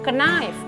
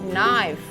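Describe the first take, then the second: First: The initial K sound is pronounced. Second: The initial K sound is silent. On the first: The speaker calls it wrong. "K yang di depan itu ikut dibacanya" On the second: The speaker calls it right. "K-nya itu tidak dibaca"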